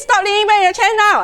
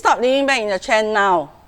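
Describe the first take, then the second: First: It is said in an angry, scolding tone. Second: It is said in a calm, firm tone. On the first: The speaker tears the child down. The speaker calls it wrong. "The third one is hostile" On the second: The speaker sets a clear limit without attacking. The speaker calls it right. "you need to be assertive"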